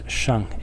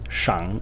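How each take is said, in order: First: The syllable is light and toneless. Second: The syllable has a low dipping tone. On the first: "in the neutral tone" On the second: "In the third tone"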